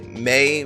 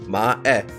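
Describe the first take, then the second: First: The name is said as English 'May'. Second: The name is said with separate Japanese-style vowels. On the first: "May makes sense like in English" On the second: "my weeb brain is telling me like no"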